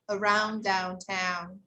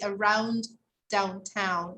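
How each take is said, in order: First: The D sound is pronounced once. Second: The D sound is pronounced twice. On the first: The speaker calls it right. "We just say one D" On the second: The speaker calls it wrong. "We don't say around downtown. No, we don't double D"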